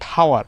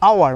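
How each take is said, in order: First: The word starts with an audible h sound. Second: The word starts with a vowel, no h. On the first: The speaker calls it wrong. "Not হাওয়ার" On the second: The speaker calls it right. "এইচ থাকলে আ উচ্চারণ হয়"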